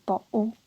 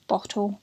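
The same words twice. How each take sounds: First: "bottle" with a catch in the throat for the t; "bottle" said as bo'le; glottal stop. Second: "bottle" with the t clearly released; sounded T. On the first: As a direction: drop the t in "bottle", leaving a stop. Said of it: "So there's a stop there". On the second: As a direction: pronounce the t in "bottle". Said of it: "It's called a glottal stop". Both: Shown as a demonstration.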